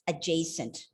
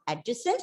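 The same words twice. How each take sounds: First: The vowel after the j is a diphthong. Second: The vowel after the j is a plain vowel. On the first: The speaker calls it right. "you bring that diphthong A after J" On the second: The speaker calls it wrong. "remember it's not adjacent"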